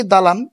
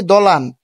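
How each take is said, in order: First: Said in the usual way. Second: দলান with a short rounded first vowel, "do-lan"; colloquial pronunciation. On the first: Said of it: "এটা শুদ্ধ রূপটা হবে কি". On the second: Shown as a demonstration. Teacher showing how we often say dalan, colloquial pronunciation. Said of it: "অনেক সময় আমরা বলি".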